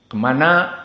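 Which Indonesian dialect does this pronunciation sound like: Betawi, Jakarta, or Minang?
Jakarta. It ends in an 'a' vowel, Jakarta-style.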